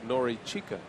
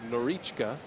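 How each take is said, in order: First: The name is said with every vowel kept. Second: The name is said with a vowel dropped. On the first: "as opposed to" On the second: "it's more authentic if you say Norichka"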